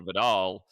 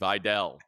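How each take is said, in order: First: The name is said the familiar way, like 'vih-DAHL'. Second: The name is said like 'vy-DELL'. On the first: It follows the well-known shampoo brand name. The speaker calls it wrong. "we want to say Vidal" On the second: It follows how the player's family says it. The speaker calls it right. "it's no, it's Vidal, even though it's not V Y D E L L"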